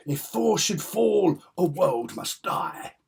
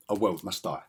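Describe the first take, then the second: First: Loud, slow, high melodramatic proclamation; high-stakes drama. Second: Said in the usual way. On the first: Acted. Fan acting out father versus son comic drama, melodramatic. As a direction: declaim it as doom for all creation. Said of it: "all that high stakes drama". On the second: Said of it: "I would say".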